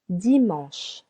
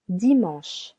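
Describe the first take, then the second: No difference in how they are said.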